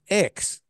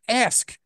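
First: The word sounds like 'axe'. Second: The word sounds like 'ask'. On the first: The speaker calls it wrong. "she said X" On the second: The speaker calls it right. "You're much smarter. Ask"

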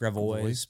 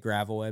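First: It is said with a French-style pronunciation. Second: It is said with the local anglicized pronunciation. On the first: This is the original pronunciation. The speaker calls it right. "but it's Gravois" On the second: This is how locals say it. The speaker calls it wrong. "We say Gravois"

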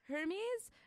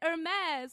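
First: The word starts with a pronounced H sound. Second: The word starts with a silent H. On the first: The speaker calls it wrong. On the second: The speaker calls it right.

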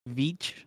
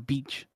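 First: The name starts with a V sound. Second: The name starts with a B sound.

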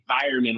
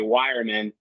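First: The word begins with a hard V sound. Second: The word begins with a W sound. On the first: "with the hard V" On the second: "other Americans say wireman"

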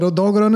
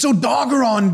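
First: The name has a Japanese-style pronunciation. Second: The name has an English pronunciation with a hard R. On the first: This copies the Japanese speaker's way. "I'm just going to call it Odogron as well" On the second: This is how most people say it. "everybody's just like, it's Odogron, dude"

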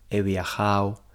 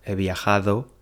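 First: The d in the ending is dropped. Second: The d in the ending is pronounced. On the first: The speaker calls it wrong. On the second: The speaker calls it right. "en lugar de"

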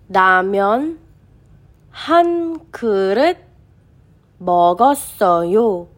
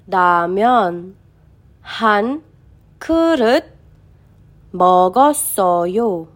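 No difference in how they are said.

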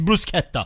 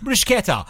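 First: The word is said in a Maltese accent. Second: The word is said in an American accent. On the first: "Jek titejda bl-Maltu bitajt bruschetta" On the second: "Jek titejda l-Amerikan bruschetta"

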